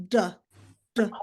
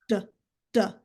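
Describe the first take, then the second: The two takes are said the same way.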